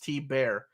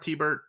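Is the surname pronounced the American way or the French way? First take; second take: French; American. First: The surname is said the French way. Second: The surname is said the American way. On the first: The name keeps its French pronunciation. "but I think it's T Bear" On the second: The person is American, so the name is anglicized. "saying Art T-Bert is American"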